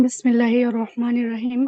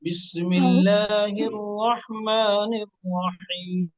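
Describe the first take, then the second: First: बिस्मिल्लाहिर रहमानिर Rahim said fast; rushed recitation. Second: बिस्मिल्लाहिर रहमानिर Rahim drawn out slowly, syllable by syllable; slow model recitation. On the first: Real, not acted. Student rushes, teacher wants it calm. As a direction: hurry through the words. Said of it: "इत्मीनान से". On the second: Shown as a demonstration. Teacher models slow recitation for student. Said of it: "सिखाया गया उस तरह पढ़िए".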